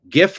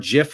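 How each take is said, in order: First: It begins with a hard G sound. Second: It begins with a soft J sound. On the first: "GIF like gift" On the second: "GIF like the peanut butter"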